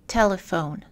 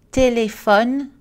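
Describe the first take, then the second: First: "telephone" in English, stress on TEL; English "telephone", falling; English word stress. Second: "Téléphone" in French, equal syllables; French "Téléphone", rising at the end; French even syllables. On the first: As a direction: say TEL-e-phone, middle vowel reduced. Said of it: "en anglais dans la colonne de droite". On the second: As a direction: say "Té-lé-phone" with clear even vowels. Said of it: "Les exemples en français". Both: Shown as a demonstration.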